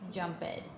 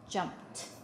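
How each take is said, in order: First: The ending is a separate 'ed' syllable. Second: The ending is a short 't' sound. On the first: The speaker calls it wrong. "we can't do ed because that sounds wrong" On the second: The speaker calls it right. "it actually sounds more like a t"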